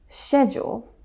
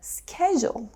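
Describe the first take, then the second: First: It is said with a British pronunciation. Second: It is said with an American pronunciation. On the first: "but in British English, you hear" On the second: "In American English, you'll hear"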